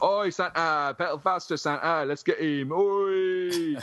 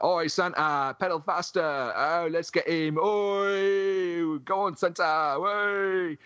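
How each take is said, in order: First: Rowdy punk heckle. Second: Justin impression. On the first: Retold or imitated. Teasing Justin by repeating punks jeering Santa, high rowdy shout. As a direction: heckle a drunk Santa like a yob. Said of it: "you'd be like". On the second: Mimicking Justin as punks heckle a drunk Santa, high jeering shout. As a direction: yell it like a rowdy punk chasing Santa. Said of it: "my uncanny impression of Justin".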